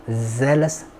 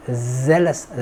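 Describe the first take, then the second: No difference in how they are said.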